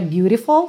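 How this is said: The middle t is a quick flap, American-style.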